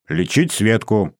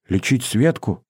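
First: Slow, steady confirmation; confirming. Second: Put-on lighter, uncertain girl's question; faltering babble. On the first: Boy assures Masha about treating her sister, firm confirmation. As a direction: confirm it slowly and firmly. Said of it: "подтвердил я". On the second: Masha asks about treating her sister, faltering question. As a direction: ask it timidly, barely believing. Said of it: "пролепетала Маша". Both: A narrator's reading.

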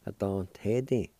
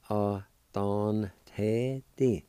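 First: Said in the usual way. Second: "A don te di" drawn out slowly, syllable by syllable; slow Cherokee pronunciation. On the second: Shown as a demonstration. Teacher modelling the Cherokee word for idea slowly. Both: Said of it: "pronounce the N sound with the D A like this".

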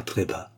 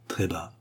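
First: Said in the usual way. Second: "très bas" breathed as a soft whisper. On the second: Shown as a demonstration. Narrator echoes "très bas" as a whisper. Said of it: "Il murmura très bas".

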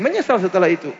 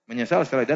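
First: Menyesal said higher and punched; emphatic. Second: Menyesal repeated softer as a quiet echo. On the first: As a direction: land the word Menyesal firmly. (Menyesal ditekankan tinggi) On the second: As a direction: let it fall away softly. (Menyesal diulang pelan) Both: Shown as a demonstration. Repeated punchline.

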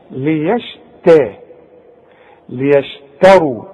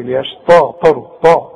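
First: ليشتروا very slow, the ت light and thin, lower; correct light ت. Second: ليشتا with a heavy emphatic ت, mocking; imitating student's error. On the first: Shown as a demonstration. Teacher models correct ليشتروا slowly. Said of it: "الراء هي المفخمة". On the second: Teacher mocks student's heavy ليشتا, lower. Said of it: "امال بتقول لي ليشتروا لي".

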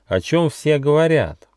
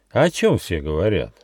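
First: High-pitched, inquiring kangaroo; polite question. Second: Subdued, wistful echo question; sad echo. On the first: Kangaroo asks the gnome about the rumour, polite. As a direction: ask politely, voice lifted high. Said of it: "вежливо спросила кенгуру Ругена". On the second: Gnome echoes the kangaroo's question, sadly. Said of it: "Гномик грустно улыбнулся". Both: A narrator's reading.

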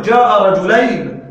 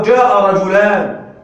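First: "رجلين" said slowly and loudly with the ending -ayn; wrong form. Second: "رجلان" said slowly and loudly with the ending -ān; correct form. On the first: Teacher warns students against this form, emphatic. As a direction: present "جاء رجلين" as the mistake, ending -ayn clear. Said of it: "لا تقل". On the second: Teacher models the correct sentence for the class, emphatic. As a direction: give "جاء رجلان" as the right model, ending -ān clear. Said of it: "تقول". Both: Shown as a demonstration.

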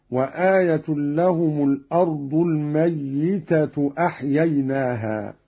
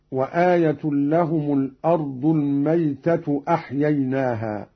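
First: الميتة said al-mayyita with a doubled, stressed ya. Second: Said in the usual way. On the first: Shown as a demonstration. Reciter showing students Qalun's reading, الميتة with a doubled ya. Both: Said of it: "بتشديد الياء هكذا".

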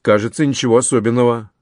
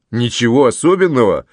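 First: Said in the usual way. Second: Mildly astonished echo question; surprised exclamation. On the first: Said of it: "пожал плечами адвокат". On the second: A narrator's reading. Officer echoing his uncle's dismissal of the news, surprised. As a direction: throw "Ничего особенного" back in surprise. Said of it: "с удивлением воскликнул Луис".

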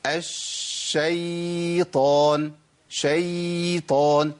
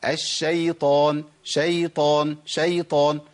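First: الشيطان and شيطان with the ya dragged very long and slow; wrong lengthened ya. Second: الشيطان with a short, unlengthened lin ya; correct soft ya. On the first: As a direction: stretch the ya in شيطان far too long. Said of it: "اسمعوا كده". (إطالة الياء في الشيطان خطأ) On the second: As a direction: say شيطان with the ya brief and light. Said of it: "هي ايه؟". (نطق الياء في الشيطان لينة بدون مد) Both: Shown as a demonstration.

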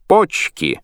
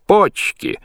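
First: High, loud cry of joy; shout. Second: Very high, loud yell; shout. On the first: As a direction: yell it out. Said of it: "Кацман кричит". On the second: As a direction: shriek it out with delight. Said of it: "Лоцман кричит". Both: A narrator's reading.

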